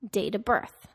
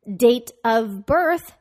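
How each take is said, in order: First: The word 'of' is reduced to a schwa. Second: The word 'of' is pronounced in full.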